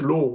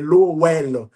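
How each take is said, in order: First: The name is pronounced with an English sound. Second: The name is pronounced with a French sound. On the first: "en anglais, ici, on prononce" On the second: "mais en français, c'est"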